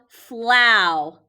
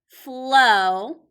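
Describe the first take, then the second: First: The vowel sounds like 'ow'. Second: The vowel sounds like 'oh'. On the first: The speaker calls it wrong. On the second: The speaker calls it right.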